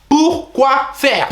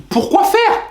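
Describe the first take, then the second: First: High, very slow incredulous repeat; slow drawn-out disbelief. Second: Very high incredulous cry; outraged disbelief. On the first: Nephew repeating the outraged question, slow and drawn out. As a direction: stretch each syllable in disbelief. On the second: Nephew reacting to bank cancelling transfer, shrill disbelief. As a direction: shriek the question in disbelief. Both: Retold or imitated.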